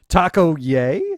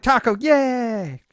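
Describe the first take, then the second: First: It sounds questioning, rising at the end. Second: It sounds excited, like an exclamation.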